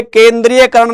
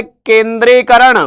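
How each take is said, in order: First: केंद्रीयकरण with the extra य sound; wrong form. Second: केंद्रीकरण said slowly without the य; correct form. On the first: Teacher showing the wrong form केंद्रीयकरण. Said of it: "ये केंद्रीयकरण नहीं होता". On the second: Teacher giving the correct word केंद्रीकरण slowly. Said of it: "शब्द क्या होता है". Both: Shown as a demonstration.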